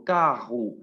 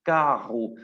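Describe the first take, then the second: First: "carro" with a throaty rr, like kahu; throaty Portuguese r. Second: "carro" said kahu, guttural rr; throaty Portuguese r. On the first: ("carro" con erre gutural portuguesa) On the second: ("carro" con erre de garganta) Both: Shown as a demonstration. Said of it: "La tengo que hacer sonar con la garganta".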